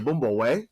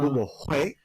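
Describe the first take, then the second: First: The last word is said like 'way'. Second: The last word is said like 'hway'. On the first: This is how the speaker's own rural region says it. "we say Way" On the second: This is how the North says it. "North says Hui"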